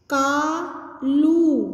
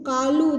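First: कालू with long drawn-out आ and ऊ; stretched vowels. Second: Said in the usual way. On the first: Shown as a demonstration. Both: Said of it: "आ की मात्रा कैसे बोलनी है".

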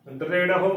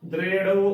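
First: ਦ੍ਰਿੜਹੁ with a separate final "ho"; correct pronunciation. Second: ਦ੍ਰਿੜਹੁ run together as "drero"; wrong pronunciation. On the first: Teacher giving the right reading, ਦ੍ਰਿੜਹੁ with h sounded. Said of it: "ਉਚਾਰਨ ਕਰਨਾ ਹੈ". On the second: Teacher showing what congregations say wrongly, ਦ੍ਰਿੜਹੁ as "drero". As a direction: drop the h of ਦ੍ਰਿੜਹੁ, ending in a long o. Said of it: "ਜੋ ਕਿ ਗਲਤ ਉਚਾਰਨ ਹੈ". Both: Shown as a demonstration.

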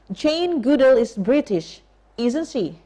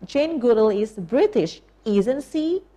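First: Jane Goodall is British said slowly, isn't she falling; demo question tag. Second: Isn't she rising at the end; rising tag demo. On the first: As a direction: model it slowly for the class to repeat. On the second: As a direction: model it again with the tag going up. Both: Shown as a demonstration. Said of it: "listen and repeat".

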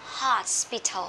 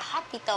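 First: "Hospital" with a clearly hissed middle "s"; correct pronunciation. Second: "hospital" as "hot-pi-to", the s dropped; quick "hospital" with no hissed S, Vietnamese-style syllables; learners' mispronunciation. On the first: Shown as a demonstration. Teacher corrects many learners' reading, clear S in "Hospital". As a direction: slowly say "Hospital", sounding the s before "pital". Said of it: "Rất là nhiều bạn đọc là hospital".

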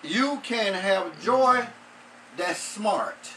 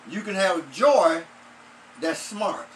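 First: Slow, weighted title "You Can Have Joy That's Smart"; announcing the title. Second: Said in the usual way. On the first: Shown as a demonstration. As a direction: lay out each word of "joy" and "smart" slowly. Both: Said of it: "our title would be".

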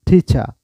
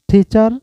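First: টিচা with the final r dropped; টিচা, British style without r; r-less pronunciation. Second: টিচার said high and loud, final r sounded; টিচার ending on a clear r; টিচার with a distinct final r; r-ful pronunciation. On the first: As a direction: say টিচা, no r at the end. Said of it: "টিচাও বলতে পারেন". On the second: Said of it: "টি এর উচ্চারণ আর ঠ এর উচ্চারণ করবেন". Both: Shown as a demonstration.

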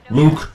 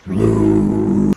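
First: High, short, rising call; quick loud questioning call. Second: Very low, long drawn-out villain call; playful deep taunting call; menacing call. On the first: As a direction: call the name out brightly and briefly, going up. Calls after Skywalker. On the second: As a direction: stretch the name into a deep, loud groan. Calls menacingly after Skywalker. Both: Pretend.

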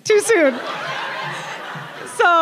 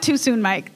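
First: Too soon said high through a laugh; mock-offended, laughing. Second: Said in the usual way. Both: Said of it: "in my mind".

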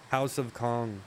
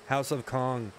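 The two takes are said the same way.

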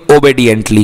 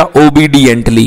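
First: "ओबीडिएंटली" with "bay" as second syllable; correct obediently. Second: "ओबीडिएंटली" slowly with "bee" as second syllable; wrong obediently. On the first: Teacher giving the corrected reading, "ओबीडिएंटली" with a "bay" sound. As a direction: say "ओबीडिएंटली" as "o-bay-dient-lee". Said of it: "आपका pronunciation सही है". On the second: Teacher showing how students misread it, "ओबीडिएंटली" with a "bee" sound. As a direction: say "ओबीडिएंटली" as "o-bee-dient-lee". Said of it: "pronunciation ही गलत हो गया". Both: Shown as a demonstration.

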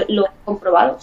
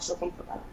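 First: Said in the usual way. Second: "lo he comprobado" breathed as an unvoiced whisper, much softer. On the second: Real, not acted. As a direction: whisper "lo he comprobado" as a private aside. Repeats the phrase, second whispered. (susurrando "lo he comprobado")

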